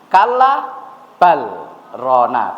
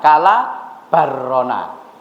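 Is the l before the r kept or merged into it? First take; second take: kept; merged. First: The l is sounded clearly before the r. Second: The l merges into a doubled r sound. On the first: The speaker calls it right. "Lah ini jahar nggih" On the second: The speaker calls it wrong.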